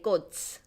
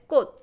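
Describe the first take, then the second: First: The final consonant is audibly released. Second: The final consonant is held, not released. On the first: The speaker calls it wrong. "I didn't say 꽃" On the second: The speaker calls it right. "I said 꽃 for flower"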